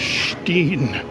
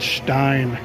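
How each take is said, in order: First: The vowel sounds like 'ee'. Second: The vowel sounds like 'eye'. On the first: The speaker calls it right. "It's Steen" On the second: The speaker calls it wrong. "not Stein"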